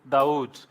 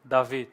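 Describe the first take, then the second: First: The middle consonant is a w sound. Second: The middle consonant is a v sound. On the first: This is the literal transliteration of the letters. "transliterally, it's Dawood" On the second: This is how the name is usually said. "That's where you pronounce your upsilon as V"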